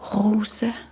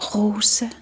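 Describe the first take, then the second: First: The R comes from the back of the throat. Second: The same.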